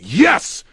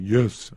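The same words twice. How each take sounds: First: It is said loudly, yelled. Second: It is said quietly and weakly.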